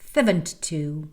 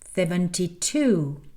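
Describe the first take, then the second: First: The number is said quickly. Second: The number is said slowly. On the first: "puis d'accélérer" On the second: "parler lentement au départ"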